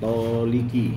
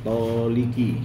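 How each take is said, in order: First: The middle vowel is i. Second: The same.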